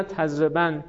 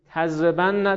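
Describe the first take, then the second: First: "تضربن" closed on the n: tazreban; light emphatic nun. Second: "تضربن" with doubled n and final "a": tazrebanna; heavy emphatic nun. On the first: Teacher reciting the light form after the heavy, "تضربن" as tazreban. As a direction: end "تضربن" on a single n, no vowel after. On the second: Teacher reciting the heavy form to students, "تضربن" as tazreban-na. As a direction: hold the nn in "تضربن" and open onto -na. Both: Shown as a demonstration. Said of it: "خفیف و ثقیل است".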